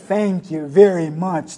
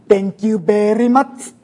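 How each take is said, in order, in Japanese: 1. アメリカ英語のアクセントで言われています。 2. フィリピン英語のアクセントで言われています。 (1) "アメリカ英語だったらThank you very much とかいうところですね" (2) "フィリピンのサンキューなんです"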